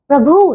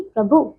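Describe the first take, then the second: First: प्रभु with a long final "oo"; mispronounced प्रभु. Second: Said in the usual way. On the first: Shown as a demonstration. Teacher shows pupils the error, long "bhoo" in प्रभु. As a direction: stretch the end of प्रभु, "prabhoo". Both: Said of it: "नहीं".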